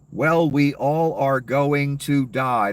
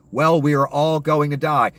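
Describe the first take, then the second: First: Slow, dismissive mock of the senator's shrug. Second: Louder, indignant quote of the senator; mocking senator. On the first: Mocking the senator's cold answer, slow and dismissive. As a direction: draw it out like you couldn't care less. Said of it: "So she responded to that". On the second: Host repeats the senator's words to viewers, louder and scornful. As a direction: throw her words back with scorn. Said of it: "For her to say".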